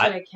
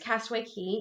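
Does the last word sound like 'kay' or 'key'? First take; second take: kay; key. First: The last word is pronounced like 'kay'. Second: The last word is pronounced like 'key'. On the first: The speaker calls it wrong. "even though it looks like" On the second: The speaker calls it right. "I think it's Castaway Cay"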